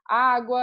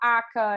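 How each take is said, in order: First: The word is said in its full adult form. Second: The word is reduced to a child's 'aca'. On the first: This is how the word really is. "ela não fala a palavra como ela é" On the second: This is how a small child says it. "ela fala aca"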